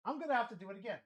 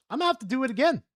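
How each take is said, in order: First: Much softer, half under the breath; trailing off into a mutter; muttered to himself. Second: Said in the usual way. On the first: Real, not acted. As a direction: mumble it as an afterthought.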